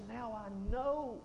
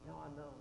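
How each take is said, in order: First: Slow, weighty, falling at the end; slow voice of God. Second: Much softer, falling off to a hush; quiet echo. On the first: Acted. God declares to Abraham, slow and solemn. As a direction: stretch each word like a solemn verdict. God speaks after the test. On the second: Shown as a demonstration. Preacher repeats God's words to the congregation, hushed. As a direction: repeat it softly to let it sink in.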